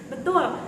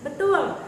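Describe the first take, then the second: Both takes have the same delivery.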